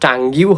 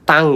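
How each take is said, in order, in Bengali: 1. শব্দটি একটি যোগ করা gyoo উচ্চারণে শেষ হয়। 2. শব্দটি সাধারণ ng উচ্চারণে শেষ হয়। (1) "এটা তো টাঙ্গিউ হওয়ার কথা ছিল" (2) "টি O N G U E কে আমরা টাং বলি"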